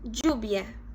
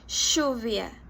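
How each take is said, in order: First: The ll sounds like y, common pronunciation. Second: The ll sounds like sh, Rioplatense accent.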